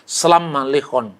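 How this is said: The first word has a-vowels, like selama. "kalau Aram Timur"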